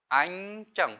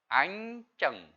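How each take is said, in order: The two takes are said the same way.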